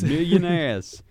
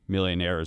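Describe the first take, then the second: First: It is said in an imitated politician's voice. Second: It is said in the speaker's ordinary voice.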